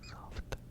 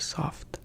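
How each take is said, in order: First: The word is whispered without voice. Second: The word is spoken gently with quiet voice. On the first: "That was whispering" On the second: "This is soft"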